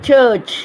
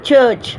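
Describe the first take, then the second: Both takes have the same delivery.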